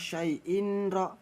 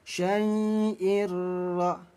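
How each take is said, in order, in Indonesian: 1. Ada bunyi n yang jelas sebelum r. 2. Bunyi n melebur sepenuhnya ke dalam r. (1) "jangan sampai dibaca syai'in ro" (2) "harus dileburkan. Ya, langsung tempelkan saja ke huruf ro"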